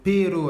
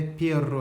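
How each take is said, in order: First: "pero" with one short tapped R; single R. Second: "perro" with a long rolled RR; double R. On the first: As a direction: tap the R of "pero" just once. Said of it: "avec un R". (« pero » avec un seul R battu) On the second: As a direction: roll the RR of "perro". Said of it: "avec deux R". (« perro » avec un R bien roulé) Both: Shown as a demonstration.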